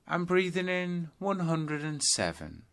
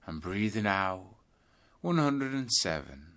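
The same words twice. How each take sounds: First: In-breath count, pitched higher. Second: Out-breath count, easing down. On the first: Teacher demonstrating the in-breath count, pitched higher. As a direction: lift the voice with the in-breath. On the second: Teacher demonstrating the out-breath count, easing down. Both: Shown as a demonstration. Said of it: "start counting your breaths backwards".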